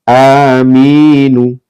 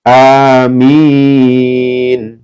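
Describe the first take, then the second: First: The word ends with a short final vowel. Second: The word ends on a consonant, vowel dropped. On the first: The reading continues without stopping. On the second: The reader stops on this word.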